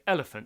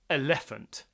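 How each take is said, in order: First: The stress falls on the first syllable. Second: The stress falls on a later syllable. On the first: The speaker calls it right. "so the stress is on the first syllable" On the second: The speaker calls it wrong. "I don't say elephant"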